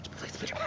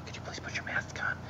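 First: High whispered request, laughing. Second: Soft whispered request. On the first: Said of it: "when you do the whisper voice". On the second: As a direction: whisper it politely. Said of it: "the lady that was on there said". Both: Retold or imitated.

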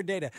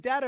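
First: "data" with a long a, DAY-tuh; long-a pronunciation. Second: "data" with a short a, DAT-uh; short-a pronunciation. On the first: Host offering the other way to say it, "data" as DAY-tuh. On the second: Host wondering aloud which way to say it, "data" as DAT-uh. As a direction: say "data" as DAT-uh, first vowel as in cat. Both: Shown as a demonstration. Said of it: "is it data or data?".

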